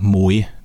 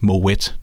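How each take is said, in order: First: It uses the popular, commonly heard pronunciation. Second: It uses the Dutch-origin pronunciation of the name. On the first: This is how most people say the name. The speaker calls it wrong. "som folk kalder for Moët" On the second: This reflects the house's Dutch origins. The speaker calls it right. "det udtales faktisk Moët, fordi det er et hollandsk ejet hus"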